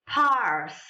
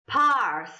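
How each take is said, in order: First: The R sound is rolled. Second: The same.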